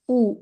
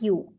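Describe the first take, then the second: First: The letter sounds like a plain oo vowel. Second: The letter sounds like the word you. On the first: The speaker calls it right. "It's oo" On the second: The speaker calls it wrong. "It's not you"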